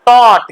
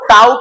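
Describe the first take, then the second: First: The vowel sounds like 'aw' in 'caught'. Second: The vowel sounds like 'ow' in 'out'. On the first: The speaker calls it right. "इसको पढ़िएगा taught" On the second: The speaker calls it wrong. "T A U G H T को tout नहीं पढ़िए"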